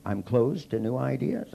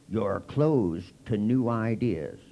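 First: Slow, rising disbelief; incredulous echo. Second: Slow, judgmental pronouncement; preachy accusation. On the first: He echoes the group's charge back in disbelief. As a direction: throw the accusation back as a question. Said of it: "And I'd go". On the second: Group member slowly accusing him of being closed. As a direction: hand down the verdict slowly. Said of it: "they'd go". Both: Retold or imitated.

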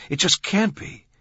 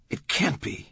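First: Much higher, louder disbelief; mounting disbelief. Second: A first, contained note of disbelief; stunned disbelief. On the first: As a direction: insist in astonishment, pitch leaping up. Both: A narrator's reading. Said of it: "in silent wonder".

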